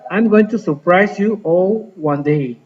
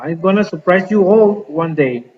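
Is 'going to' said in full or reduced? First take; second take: full; reduced. First: Going to is said as two full words. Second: Going to is squeezed into the short form gonna. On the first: This is the standard form. "ya sin contracción going to" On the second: This is very informal speech. "la contracción está acá"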